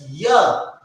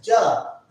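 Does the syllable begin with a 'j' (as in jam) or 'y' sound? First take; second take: y sound; j sound. First: It begins with a 'y' sound as in yes. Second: It begins with a 'j' sound as in jam. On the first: The speaker calls it right. "we pronounce ya" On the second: The speaker calls it wrong. "we don't pronounce ja"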